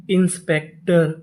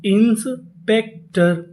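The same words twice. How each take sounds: First: Said in the usual way. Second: inspector drawn out very slowly; slow model reading; very slow word. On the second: Shown as a demonstration. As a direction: stretch it for learners. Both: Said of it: "तो पूरी meaning".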